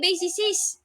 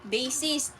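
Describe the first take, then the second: First: The word is said with three syllables. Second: The word is said with two syllables. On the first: The speaker calls it wrong. "Hindi basicist" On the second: The speaker calls it right. "Bassist kasi guitarist"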